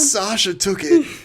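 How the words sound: It is said in a put-on Shinji voice.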